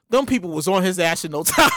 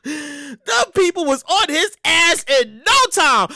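First: Low, laughing delivery. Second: Slow, with "no time" stretched out; drawn-out emphasis. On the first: Host cracking up at how fast police came, laughing. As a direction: tell it while breaking into laughter. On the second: Host stressing how fast police came, slow emphatic "no time". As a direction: lean hard on "no" in "no time", drawing it out. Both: Real, not acted.

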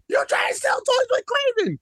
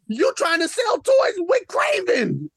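First: Much higher yell, stress on you; shrill escalated shout. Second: First angry shout; indignant shout. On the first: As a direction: push the repeat way up. Second take, even higher. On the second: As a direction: shout it with stress on toys. First take of repeated shout. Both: Real, not acted.

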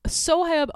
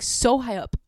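First: "so high up" higher and louder, SO lifted; emphatic repeat. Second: Said in the usual way. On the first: Shown as a demonstration. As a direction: push "so high up" up high in disbelief.

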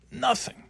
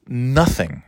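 First: "Nothing." repeated much higher and softer, in disgust; bitter emphasis. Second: Said in the usual way. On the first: Real, not acted. Griping about coworkers, "Nothing." high, soft and scornful.

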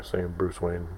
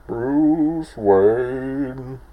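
First: Said in the usual way. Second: Higher, louder, masked Riddler voice on "Bruce Wayne". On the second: Retold or imitated. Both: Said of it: "I really liked him when he was ta-, saying Bruce Wayne".

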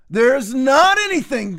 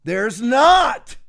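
First: "not" stressed and drawn out in "There's not anything."; slow down and lean on "not"; slower emphatic denial. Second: NOT hit hard in "There's not."; emphatic denial. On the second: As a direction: bark out "not" with a falling finish. Rebutting a caller, shouted denial. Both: Real, not acted.

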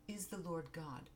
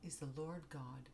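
The two takes are said the same way.

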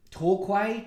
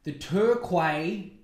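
First: "Torquay" said as TOR-kway, with an aw vowel; alternate pronunciation. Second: "Turquoise" said as TUR-kway, with an er vowel; alternate pronunciation. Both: Shown as a demonstration. Tries alternate pronunciations of town name.

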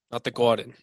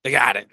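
First: Said in the usual way. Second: "Garden" said as "Gahden" with the r dropped, New York style; mock New York "Gahden"; thick Noo Yawk "The Gahden"; New York accent. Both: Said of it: "hoping you would tell by my accent".

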